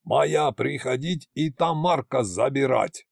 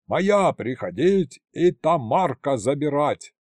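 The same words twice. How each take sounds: First: Slow brutish broken-Russian line; brute's broken speech. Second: Slow, brutish broken-Russian yell; brute's broken speech. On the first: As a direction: growl it like a dumb giant. (громила на ломаном языке) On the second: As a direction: bellow it like a dumb giant. (грубый громила кричит на ломаном языке) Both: A narrator's reading. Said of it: "проорал он".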